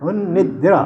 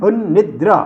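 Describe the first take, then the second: No difference in how they are said.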